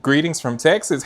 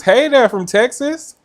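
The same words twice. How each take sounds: First: Said in the usual way. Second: Higher, louder, slow hammed-up Texan hello; mock Texan greeting. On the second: Greeting a Texan viewer back in a mock Texan accent. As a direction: stretch it out like a playful Texan drawl.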